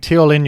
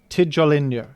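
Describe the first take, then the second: First: The name is said without a J sound. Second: The name is said with an English J sound. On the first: The speaker calls it wrong. "I've been saying Teolin" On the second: The speaker calls it right. "pronounced with the letter J as, as you're supposed to pronounce it in normal English, as J"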